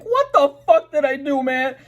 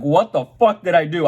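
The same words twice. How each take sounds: First: Very high, squeaky disbelief; shrill exasperated plea. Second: Higher and louder confused panic; panicked outburst. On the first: Retelling being booked by the cops, a shrill exasperated plea. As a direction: wail it like it makes no sense. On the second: Retelling the sirens coming on, a raised panicked what. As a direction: blurt it out in alarm. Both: Retold or imitated.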